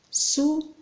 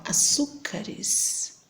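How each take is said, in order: First: Açúcares said aloud, pitched higher, rising at the end; voiced rising take. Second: Açúcares whispered very slowly, syllable by syllable; slow whispered sound-out. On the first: Teacher repeating Açúcares aloud for the class, rising. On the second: Teacher sounding out açúcares for the class, slow whisper. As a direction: breathe açúcares out slowly to show where the stress falls. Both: Shown as a demonstration. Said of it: "Se formos fazer o plural".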